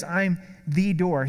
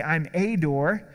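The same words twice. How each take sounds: First: "the" said as a long, emphatic "thee"; stress on THE. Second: "a" said as a long, emphatic "ay"; stress on A. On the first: Preacher showing what Jesus says, stressed "the". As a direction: slowly lean on "the" as the only one. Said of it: "He says". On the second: Preacher showing what Jesus doesn't say, stressed "a". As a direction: slowly lean on "a" as the wrong article. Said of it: "Jesus doesn't say". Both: Shown as a demonstration.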